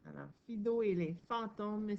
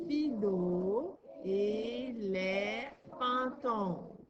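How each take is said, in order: First: Said in the usual way. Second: «Fido et les fantômes» stretched very slowly, syllable by syllable; teacher reading a title slowly to a pupil; slow sounding out. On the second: Shown as a demonstration. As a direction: read the title slowly so a child can follow each syllable. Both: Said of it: "on lit le titre".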